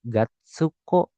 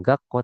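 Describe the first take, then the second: First: "gatsuko" slowly in three syllables, ga-tsu-ko; full tsu reading. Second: "gakko" with a doubled k and no tsu sound; small-tsu reading. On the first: Teacher reads big tsu for learners, fully sounded tsu. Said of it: "kalau misalkan su-nya besar". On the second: Teacher names reading to avoid with big tsu, doubled k. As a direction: close on the k in "gakko", then say ko. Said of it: "bacanya jangan gakko". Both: Shown as a demonstration.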